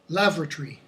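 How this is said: The unstressed syllable is reduced, British style.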